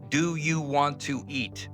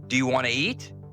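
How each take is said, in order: First: Each word is said separately and clearly. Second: The words run together into one stream.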